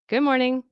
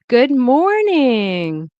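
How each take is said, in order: First: The vowels are said quickly and short. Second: The vowels are stretched out and long.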